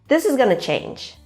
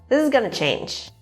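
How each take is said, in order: First: 'Going to' is blended into 'gonna'. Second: The same.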